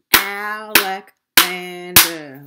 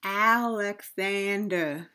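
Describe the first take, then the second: First: Alexander slowly in four loud beats, Al-ex-an-der; syllable by syllable. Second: Said in the usual way. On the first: Shown as a demonstration. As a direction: punch out each syllable of Alexander, drawn out. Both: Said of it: "how many parts a word can be broken into".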